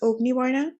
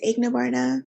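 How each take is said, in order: First: The name is said in its original pronunciation. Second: The name is said in others' usual pronunciation. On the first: This is how the name is properly pronounced. "my first name is" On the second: This is how other people usually say the name. "I've grown up hearing people pronounce it as"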